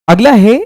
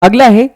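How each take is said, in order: The two takes are said the same way.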